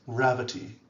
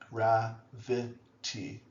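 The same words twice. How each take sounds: First: The middle vowel is dropped. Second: The middle vowel is pronounced fully.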